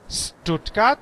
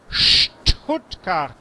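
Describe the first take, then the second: First: The word begins with a plain s sound. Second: The word begins with an sh sound. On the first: The speaker calls it wrong. "no es Stuttgart" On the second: The speaker calls it right. "es Stuttgart"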